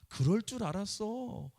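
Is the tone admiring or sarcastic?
admiring. It is said in an admiring, delighted tone. The listener is being praised. The speaker calls it right. "이거 좋은 말이잖아요"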